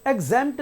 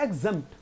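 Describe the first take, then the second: First: एग्जेम्प्ट dragged to 'eg-ZAYMPT'; एग्जेम्प्ट with a long second vowel; wrongly stretched vowel. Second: एग्जेम्प्ट with a brief open E; don't stretch the middle of एग्जेम्प्ट; short vowel. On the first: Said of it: "एग्जेम्प्ट नहीं है". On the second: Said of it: "तो खींच नहीं रहा". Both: Shown as a demonstration.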